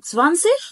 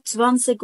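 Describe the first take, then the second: First: First "سفانسيك" ending in a soft ch, louder; soft ich ending. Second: "سفانسيك" with a hard final k, louder; clicked K ending. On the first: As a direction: hiss the end of "سفانسيك" as German ich. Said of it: "عندك نطقين". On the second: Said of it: "التكة على تكة الأمان". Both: Shown as a demonstration.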